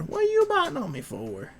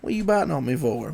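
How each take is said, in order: First: Very high put-on dog voice. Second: Said in the usual way. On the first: Owner voicing the dog's reply, very high put-on voice. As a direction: say it as the dog would.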